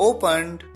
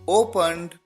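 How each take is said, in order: The two takes are said the same way.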